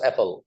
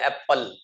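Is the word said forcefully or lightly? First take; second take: lightly; forcefully. First: The word is said lightly, without heavy emphasis. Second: The word is said forcefully, with heavy emphasis. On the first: The speaker calls it right. "Apple पढ़िएगा इसको" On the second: The speaker calls it wrong. "इतने जोरदार अंदाज में पढ़ते हैं इसको"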